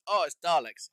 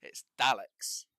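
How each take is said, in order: First: Loud, higher "Oh, it's Darleks"; mimicked mispronunciation. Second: Daleks loud and slow, A as in cat; correct pronunciation. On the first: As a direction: mimic people saying Daleks with a long "ar". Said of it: "There's no R". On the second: Shown as a demonstration. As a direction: correct them with a drawn-out Daleks, no R. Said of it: "Pronounce it correctly".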